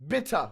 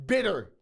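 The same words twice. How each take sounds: First: "Bitter" with a crisp T and no final R; mock British "Bitter", hard T in the middle; crisp T pronunciation. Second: "Bitter" with the T tapped like a D and an American R; T pronounced as D. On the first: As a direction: say "Bitter" as "bit-tah". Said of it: "we don't do shit like that". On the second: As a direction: say "Bitter" as "bidder". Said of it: "we pronounce our T's as D's". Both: Shown as a demonstration.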